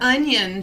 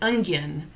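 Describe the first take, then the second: First: It is said without a G sound. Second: It is said with an added G sound. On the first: This is the usual way to say it. The speaker calls it right. "she doesn't say onion" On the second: This is how a friend says it. The speaker calls it wrong. "where in the hell did you get a G in the word onion?"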